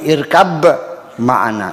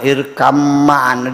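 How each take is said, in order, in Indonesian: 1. Kata pertama berakhir dengan bunyi b. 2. Kata pertama berakhir dengan bunyi m.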